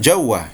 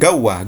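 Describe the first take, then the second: First: The word starts with a j sound. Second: The word starts with a hard g sound. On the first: This is how Saudis say it. "orang Saudi mengatakan jawah" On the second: This is how Egyptians say it. "Orang Mesir mengatakan gawah"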